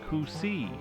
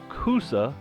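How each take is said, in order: First: The name ends in an 'ee' sound. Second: The name ends in an 'uh' sound. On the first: This is how local people say the name. "locally pronounced as Coosee" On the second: This is the official form of the name. "the historical Coosa"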